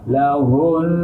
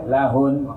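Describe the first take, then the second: First: The final n sound is held for two beats. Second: The final n sound is cut short. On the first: The speaker calls it right. "harus ditahan dua harokat" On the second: The speaker calls it wrong. "tidak boleh lahun"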